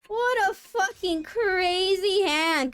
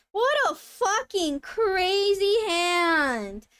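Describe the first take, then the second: First: High, loud and slow, a touch quicker; awed disbelief again. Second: High, loud and very slow; awed disbelief. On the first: Streamer repeating awe at the crazy hand, slow and loud. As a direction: repeat it, still stretched in awe. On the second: Streamer stunned by a rival's yakuman, slow and loud. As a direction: drag out every word in awe. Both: Real, not acted.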